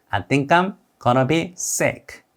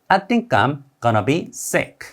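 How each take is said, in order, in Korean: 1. 단어들이 이어서 발음돼요, going to는 gonna로 발음돼요. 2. 단어들이 이어서 발음돼요, going to는 gonna로 발음돼요.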